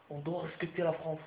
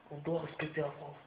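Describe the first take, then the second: No difference in how they are said.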